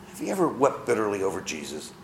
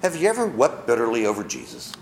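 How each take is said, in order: First: "Have you ever wept bitterly over Jesus?" repeated softer and lower; quiet. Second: Said in the usual way. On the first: Shown as a demonstration. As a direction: ask it again gently, inward. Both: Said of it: "just answer this to yourself".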